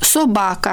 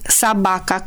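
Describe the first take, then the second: First: The first vowel sounds like o. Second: The first vowel sounds like a. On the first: This is how the word is written. "Se scrie sobaca, adică O" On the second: This is how the dialect speakers say it. "dar noi pronunțăm sabaca"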